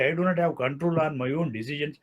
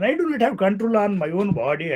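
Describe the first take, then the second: First: Said in the usual way. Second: Higher pitched, protesting tone with weight on do; mock indignation. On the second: Lecturer voicing a citizen's outrage at state control, mock indignant. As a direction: act out the citizen's moral outrage. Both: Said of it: "I will have a sort of moral indignation".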